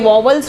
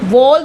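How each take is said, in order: First: The word is said as two syllables. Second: The word is said as one syllable. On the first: The speaker calls it wrong. "हम normal उसको India में वॉवल्स बोल देते हैं" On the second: The speaker calls it right. "वॉल्स उसकी सही pronunciation है"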